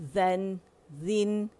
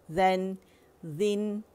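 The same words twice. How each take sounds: The two takes are said the same way.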